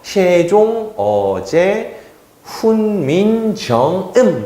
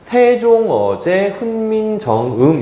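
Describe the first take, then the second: First: It is read with old pronunciation, no pitch tones. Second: It is read with plain modern pronunciation. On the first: "그때 당시에 발음을 좀 더 가까이 하면요" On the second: "이렇게 읽으면 돼요"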